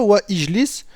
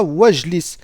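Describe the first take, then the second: First: "wa ijlis" as two words with the i sounded; the wrong way, no liaison; wrong, hamza kept. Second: "wajlis" in one word, the i dropped; the right way, hamza silent; correct liaison. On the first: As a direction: say "wa ijlis" with a full "i" after wa. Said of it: "On dira pas". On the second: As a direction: glide "wajlis" straight from wa to j. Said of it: "on dira". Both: Shown as a demonstration.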